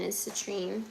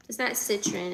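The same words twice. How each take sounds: First: "citrine" said as sih-TREEN, softly. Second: "citron" said as SIT-ron, the wrong way. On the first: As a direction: stress the end of "citrine". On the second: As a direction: say "citron" with a short second syllable. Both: Shown as a demonstration.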